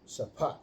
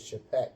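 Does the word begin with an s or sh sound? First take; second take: s; sh. First: The word begins with an s sound. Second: The word begins with a sh sound. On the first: This is the speaker's preferred pronunciation. The speaker calls it right. "but it's sapat" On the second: This is how the reference source pronounces it. The speaker calls it wrong. "they pronounce it in there shapat"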